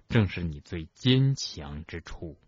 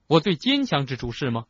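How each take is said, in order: First: Slow, low, measured reassurance; calm, unhurried sincerity. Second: Higher, indignant challenge; incredulous retort with suppressed anger; trembling angry retort. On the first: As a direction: say it gently and deliberately, pitched low. Dumbledore gently reassures upset Harry. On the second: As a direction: throw it back as a bitter question. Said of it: "他的声音在颤抖，". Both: A narrator's reading.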